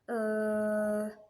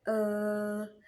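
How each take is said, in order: First: The vowel is held long and drawn out. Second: The same.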